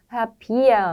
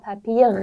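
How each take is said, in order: First: The ending is a soft vowel-like sound. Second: The ending has a clear consonant r sound. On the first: It is the easy standard way for beginners. "편하게 발음하시는 게 더 좋을 것 같습니다" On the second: It is a regional way of saying it. "이렇게 할 필요 없이"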